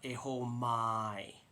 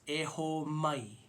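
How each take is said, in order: First: The vowel in mai is long and loose. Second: The vowel in mai is short and tight. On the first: The speaker calls it wrong. "it's not Eho mai. It's not pronounced like my" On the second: The speaker calls it right. "You want to say that sharp I. So it's Eho mai"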